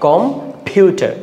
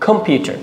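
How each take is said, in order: First: computer slowly split as com, then a high stressed PYU-ter; slow, syllable-by-syllable computer, second part raised. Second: computer said in one go, high stressed PYU; whole-word computer without a break; joined-up word, second-syllable stress. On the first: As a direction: break computer after the first syllable and push the second. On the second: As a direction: run computer together, leaning on the second syllable. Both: Shown as a demonstration. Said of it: "আমরা second syllable পাচ্ছি".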